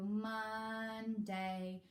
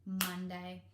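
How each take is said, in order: First: Slow, two separate beats; split syllables. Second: Monday said as one quick blended word; squished together. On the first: Showing parents the split-word way, slowly. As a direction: pull the two parts apart. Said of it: "For two syllable words". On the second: Teacher blending the syllables back for parents. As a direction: blend the two beats into one. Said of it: "then you squish them together". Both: Shown as a demonstration.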